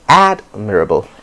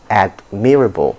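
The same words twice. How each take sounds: First: The stress does not fall on the second syllable. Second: The stress falls on the second syllable. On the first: The speaker calls it right. "instead of" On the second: The speaker calls it wrong. "you now stress the me"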